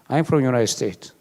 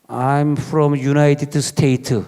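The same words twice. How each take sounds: First: It is said with an American-sounding accent. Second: It is said with a Korean-sounding accent. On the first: People respond respectfully. The speaker calls it right. "딱 이래야지" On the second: It invites racist treatment. The speaker calls it wrong. "막 이러면요"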